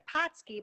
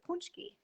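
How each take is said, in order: First: The middle consonant sound is 'ts', no nasal. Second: The middle consonant sound is nasal 'nch'. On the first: This is how the spelling looks. The speaker calls it wrong. "it looks like Patsky" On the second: This is how the word is really said. The speaker calls it right. "but it's really punchki"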